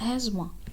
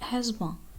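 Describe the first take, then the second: First: The th sound is left out of the word. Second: The same.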